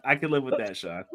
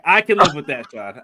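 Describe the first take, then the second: First: Said in the usual way. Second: Said louder, a mic level test; louder take. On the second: Shown as a demonstration. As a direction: raise your voice for the mic check. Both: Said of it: "If you get loud".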